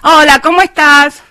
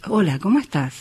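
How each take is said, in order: First: It is said in a higher, ordinary voice. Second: It is said in a low, deep voice.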